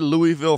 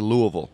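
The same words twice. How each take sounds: First: The name is pronounced the way outsiders say it. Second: The name is pronounced the way locals say it. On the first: It is adapted for listeners from elsewhere. "I say Louisville for you guys" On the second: It is how residents really say it. "It's really Louisville"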